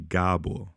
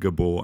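First: The first vowel is long. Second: The first vowel is short. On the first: The speaker calls it right. "I have a line on top of the A" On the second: The speaker calls it wrong. "I'm technically not Gabor"

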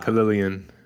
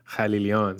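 First: The name is said with an American pronunciation. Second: The name is said with a Farsi pronunciation. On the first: "I gave you the American way of saying my name" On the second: "the Farsi way of saying my last name is"

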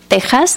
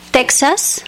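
First: It is said with a Spanish pronunciation. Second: It is said with an English pronunciation.

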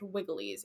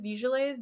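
First: The word begins with a W sound. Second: The word begins with a V sound. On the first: This is how Latin said it. "but it's pronounced Wigiles in Latin" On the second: This follows the spelling. "I will pronounce it Vigiles because that's how it's spelled"

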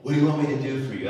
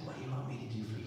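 First: It is said in a hurried, impatient tone. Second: It is said in a warm, patient tone.

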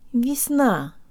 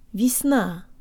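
First: The stress is on the second syllable. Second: The same.

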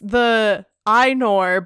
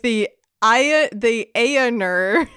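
First: Ainur is said with its accepted pronunciation. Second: Ainur is said with a naive spelling-based pronunciation. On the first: The speaker calls it right. "I think it's like, so it's the Ainur" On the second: The speaker calls it wrong. "when I was first reading it, I was like, the Ainur. Like, how gross is that?"

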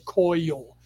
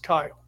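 First: The vowel sounds like 'oy'. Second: The vowel sounds like 'eye'. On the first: The speaker calls it wrong. "I always say Coyle, like there's a U in there" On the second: The speaker calls it right. "It's Kyle"

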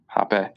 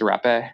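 First: The word begins with an H sound. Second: The word begins with an R sound. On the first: This is how it is said in Portuguese. "But I think in Portuguese, it's hape" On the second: This is how it is said in Northern Colombia. "the way I've always heard it pronounced, like in the Northern Colombia"

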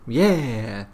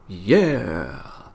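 First: It sounds high and happy. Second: It sounds low and menacing, like a villain.

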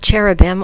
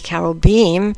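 First: The word is said with an English pronunciation. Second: The word is said with a Hebrew pronunciation.

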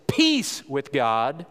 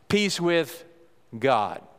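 First: The word peace is stressed. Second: The word God is stressed.

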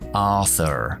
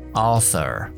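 First: The final R sound is pronounced. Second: The same.

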